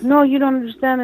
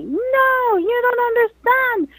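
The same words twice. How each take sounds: First: Higher-pitched retold objection, not yelled; quick, higher quoted protest. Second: Drawn-out, high wail of protest, acted; retold yell. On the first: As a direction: imitate her insisting, voice raised in pitch only. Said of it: "So back and forth". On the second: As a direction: imitate her desperate cry without full volume. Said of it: "she yelled at me".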